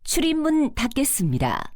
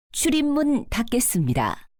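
Both takes have the same delivery.

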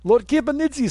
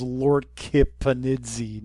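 First: Put-on Kipanidze said high in a thick Russian accent. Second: Said in the usual way. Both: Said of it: "my Russian accent's dying".

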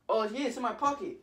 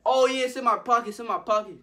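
First: Higher-pitched breezy answer at normal volume; lightly acted confidence; casual assurance. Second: High, loud, insistent bluff; imitated frantic reassurance; panicked cover-up. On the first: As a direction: reassure mom as if nothing is wrong. First answer about mom's card. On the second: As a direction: insist on it while starting to panic. Pockets empty, still covering up.

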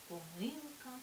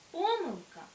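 First: ПомИлка, stress on the second syllable И, said softly; softer take of помилка; second stress variant. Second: ПОмилка, stress on the first syllable По, said high; higher, louder take of помилка; first stress variant. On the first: (другий варіант: помИлка) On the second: (перший варіант: пОмилка) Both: Shown as a demonstration. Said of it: "які мають подвійний наголос".

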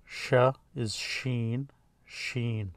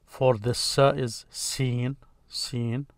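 First: "sheen" with a soft SH and a long EE; "sheen" drawn out slowly, long EE; letter name. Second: "seen" with a long EE; "seen" said slowly, long drawn EE; letter name. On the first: Teacher naming the letter for students, long clear "sheen". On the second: Teacher naming the letter for students, long clear "seen". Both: Shown as a demonstration. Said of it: "The name here is".

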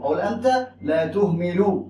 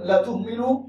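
First: Slow, even statement "انت لا تهمل" with no command. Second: "لا تهمل" said as an order with "لا" stressed; firm command. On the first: Teacher showing students the negating لا as a calm statement. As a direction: say "انت لا تهمل" slowly as a plain report. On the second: Teacher showing students the forbidding لا as a command. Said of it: "انت لا تهم-، لا تهمل". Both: Shown as a demonstration.

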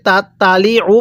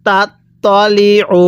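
First: "তালি" with a light, thin "তা" in place of heavy ত; common mispronunciation. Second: "তাত তলি উ" read slowly, with a heavy, rounded ত starting "তলি"; correct letter sounds. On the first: Teacher shows learners the common mistake, "তালি" with light তা. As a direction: say "তাত তালি উ" quickly, both t sounds alike and light. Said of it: "অনেকেই শব্দটাকে তাত তালি উ পড়ি". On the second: Teacher models the word for learners, careful "তলি" with heavy ত. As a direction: keep the "ত" in "তলি" full and dark, not a light "তা". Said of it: "যেই হরফের উচ্চারণ যেরকমভাবে পড়তে হবে".

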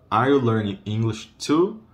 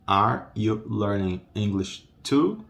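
First: Said in the usual way. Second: Are you learning English too, word by word, rising on TOO; slow modelling. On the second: Shown as a demonstration. Teacher asks learners are you learning English too, slow modelling. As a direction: space out each word, lift the final TOO.

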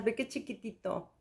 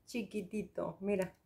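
First: Hushed, cooing over something tiny; soft delighted murmur. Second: Much softer, almost breathed echo; hushed doting repeat; near whisper. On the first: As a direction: coo at the tiny pot softly. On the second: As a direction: breathe the word chiquitito as a tender echo. Cooing over the tiny product. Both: Real, not acted.

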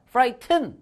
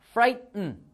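First: "frighten" with a full vowel in the second syllable, as "frai-ten"; wrong pronunciation. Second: "frighten" with the second syllable swallowed into a glottal stop, "frai-n"; native pronunciation. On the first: Teacher demonstrating the wrong way to say it. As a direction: say "frighten" the Korean-textbook way, sounding every letter. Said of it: "막 frighten 이럴 수 있는데 아, 안 돼". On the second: Teacher giving the native pronunciation. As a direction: say "frighten" like a native, the t held back. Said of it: "원어민 발음은요". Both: Shown as a demonstration.

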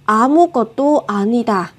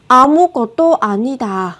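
The two takes are said the same way.

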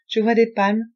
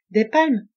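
First: Said in the usual way. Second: Louder doubting echo of palmes; incredulous question. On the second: A narrator's reading. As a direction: challenge the word palmes. Doubting the other's reading. (« Des palmes ? » incrédule et appuyé)

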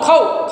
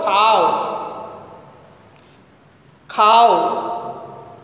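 First: "cow" with a closed ow, pitched up; wrong vowel demo. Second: "cow" as ka-oo, open ah drawn out; correct diphthong. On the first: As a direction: show "cow" wrongly, short and without open ah. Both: Shown as a demonstration. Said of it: "No cow".

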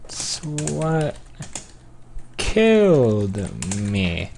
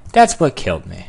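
First: Stretched-out words with a pause; slow dictation. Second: Said in the usual way. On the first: Real, not acted. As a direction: draw each word out while typing. Slowly sounding out typed message.

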